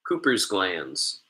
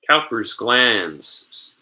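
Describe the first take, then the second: First: The first syllable sounds like 'coo'. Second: The first syllable sounds like 'cow'. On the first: The speaker calls it right. "but it's Cooper" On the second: The speaker calls it wrong. "I think it's Cowper"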